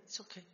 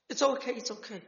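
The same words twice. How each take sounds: First: Trailing off to a soft murmur; fading reassurance. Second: Gentle comforting, slightly higher and falling; reassuring. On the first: Sister hugging her brother, reassurance fading to near silence. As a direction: let the last okay die away softly. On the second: Sister hugging her brother, gently reassuring him. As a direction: soothe a sorry little brother. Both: Retold or imitated.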